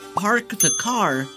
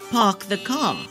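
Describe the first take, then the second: First: The R sounds are clearly pronounced. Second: The R sounds are dropped.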